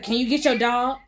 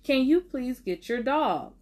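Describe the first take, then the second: First: It is said in a rude tone. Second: It is said in a polite tone.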